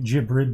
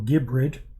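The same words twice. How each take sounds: First: The G is soft, like in gem. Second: The G is hard, like in go. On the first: The speaker calls it wrong. "Some people might think Gibrid" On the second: The speaker calls it right. "but no"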